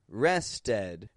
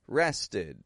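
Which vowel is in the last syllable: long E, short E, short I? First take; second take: short E; short I. First: The last syllable has a short E vowel. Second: The last syllable has a short I vowel. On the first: The speaker calls it wrong. "I'm not pronouncing it an E. You know, I didn't just say rested" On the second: The speaker calls it right. "But I gave it an I. I sound. The short I"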